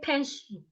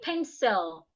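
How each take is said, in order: First: The final L is weak, tongue not touching teeth. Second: The final L is clear, tongue touching teeth. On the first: The speaker calls it wrong. "This is wrong. Don't say pencil" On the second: The speaker calls it right. "make sure the tip of your tongue is touching the upper teeth"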